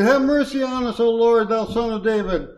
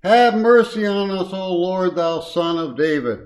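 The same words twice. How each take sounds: First: High-pitched acted plea for mercy; crying out more. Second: Mild cry for mercy, loud and raised at first. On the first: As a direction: cry out higher and more insistently, as if unheard. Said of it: "they cried the more". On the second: Acted. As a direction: call out a plea, easing off toward the end. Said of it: "they cried out".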